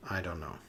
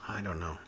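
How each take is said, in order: Both takes have the same delivery.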